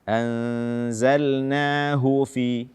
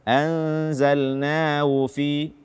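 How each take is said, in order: First: The h sound is clearly audible. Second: The h sound is weak and barely heard. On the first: The speaker calls it right. "membaca ha dengan jelas" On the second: The speaker calls it wrong.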